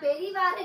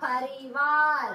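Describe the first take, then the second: First: The first vowel sounds like 'e'. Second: The first vowel sounds like 'a'. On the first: The speaker calls it wrong. "பெரிவார் இல்லடா" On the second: The speaker calls it right.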